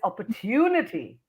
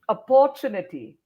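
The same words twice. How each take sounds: First: The 'tu' syllable goes up. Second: The 'tu' syllable does not go up. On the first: The speaker calls it right. "tu goes up" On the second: The speaker calls it wrong. "a lot of people say"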